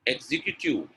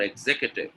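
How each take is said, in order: First: EXECUTIVE with a long "kyoo-tiv"; wrong pronunciation. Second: EXECUTIVE with stressed "zek" and short "kyuh"; correct pronunciation. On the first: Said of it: "The second one is correct". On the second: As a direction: say EXECUTIVE as "eg-ZEK-yuh-tiv". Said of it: "Executive is correct". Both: Shown as a demonstration.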